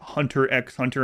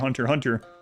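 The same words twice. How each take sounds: First: The X in the middle is spoken aloud. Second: The X in the middle is left silent. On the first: The speaker calls it wrong. "My daughter pronounced uh, it Hunter x Hunter" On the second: The speaker calls it right. "you know the X is silent in that"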